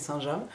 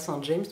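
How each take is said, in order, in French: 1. James se prononce à la française. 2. James se prononce à l'anglaise. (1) "mais Saint-James" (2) "on dit pas Saint-James"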